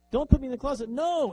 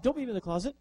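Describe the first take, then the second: First: Louder, higher desperate begging; panicked plea. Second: High, frightened begging; scared plea. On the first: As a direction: beg harder in panic. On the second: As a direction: beg not to be shut in. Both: Retold or imitated. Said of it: "And the robot says".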